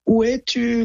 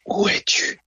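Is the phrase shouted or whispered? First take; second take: shouted; whispered. First: The phrase is shouted loudly. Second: The phrase is whispered breathily.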